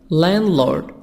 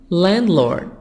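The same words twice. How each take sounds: Both takes have the same delivery.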